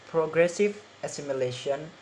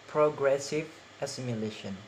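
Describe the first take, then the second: No difference in how they are said.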